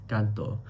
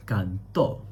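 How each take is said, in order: First: "canto" stressed on "can", falling away on "to"; stress on first syllable. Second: "canto" with heavy stress on the final "to". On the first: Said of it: "if you take the tilde off". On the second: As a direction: say "canto" as can-TO. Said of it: "is heavily stressed". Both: Shown as a demonstration.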